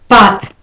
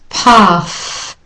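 First: The TH has no puff of air. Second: The TH has a clear puff of air. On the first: "Unaspirated, ... the vowel gets shortened too"

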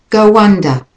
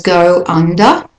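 First: The words are joined by a linking w sound. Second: The words are said separately, without a linking sound.

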